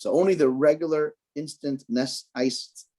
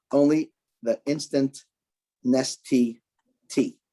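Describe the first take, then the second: First: Said in the usual way. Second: "Only" stressed, then "instant" and "Nestea" spaced out slowly; slow careful correction. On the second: Shown as a demonstration. Teacher correcting herself for listeners, slow stressed "Only the instant Nestea". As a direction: spell it out word by word, leaning on "Only". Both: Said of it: "try this again".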